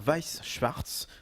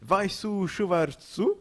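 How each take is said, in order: First: The words end without an added vowel. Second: Each word ends with an added 'u' vowel.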